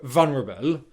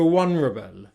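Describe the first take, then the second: First: The first sound is a V sound. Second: The first sound is a W sound. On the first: The speaker calls it right. "making a V sound for v" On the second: The speaker calls it wrong. "she's made a W sound"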